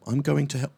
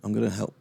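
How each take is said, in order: First: "going to" spelled out fully, not "gonna"; going to said in full. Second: Said in the usual way. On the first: Shown as a demonstration. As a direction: say "going to" carefully as two words. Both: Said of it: "Should we try that again, guys?".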